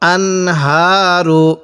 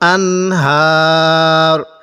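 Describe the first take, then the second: First: The word ends with a short final vowel. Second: The word ends on the consonant r. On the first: The reading continues without stopping. "তাহলে কিভাবে পড়ব?" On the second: The reader stops at this word. "এখন যদি আমরা এখানে ওয়াকফ করি তাহলে কিভাবে পড়ব?"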